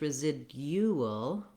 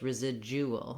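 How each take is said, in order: First: The middle has a d then a y glide. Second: The middle d turns into a j sound. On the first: "British English residual" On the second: "American English residual"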